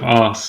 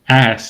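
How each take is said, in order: First: The word is said in a British accent. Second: The word is said in an American accent. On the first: "instead of" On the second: "I'm going to start saying ass"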